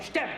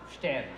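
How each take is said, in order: First: It is said in an angry, scolding tone. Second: It is said in a hopeful, upbeat tone. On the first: "Tu peux le dire en l'engueulant" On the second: "Tu peux le dire avec optimisme"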